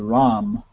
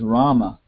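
First: The name ends on the consonant, no final vowel. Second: The name ends with a final vowel sound. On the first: This is the Bengali and Hindi form. "But both in Bengali and Hindi, you don't say that. You say Ram" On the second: This is the Sanskrit form. "I guess the real pronunciation is Rama, you know, Bhima. That's the Sanskrit pronunciation"

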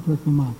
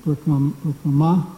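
First: The final vowel is cut short. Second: The final vowel is drawn out long. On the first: "short A" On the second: "long A"

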